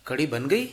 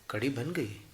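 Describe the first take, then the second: First: कढ़ी बन गई with the गई rising as a question; question tune. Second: कढ़ी बन गई softly, गई falling as a statement; answer tune. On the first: Teacher demonstrates the question, गई rising at the end. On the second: Teacher demonstrates the answer, गई falling and quiet. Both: Shown as a demonstration. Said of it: "वही प्रश्न और वही उत्तर".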